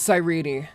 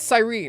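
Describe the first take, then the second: First: The final E is pronounced. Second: The final E is silent. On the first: This is how the name is officially said. "It's pronounced" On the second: This is how fans guessed the name. "it looks like a silent E, like, at the end"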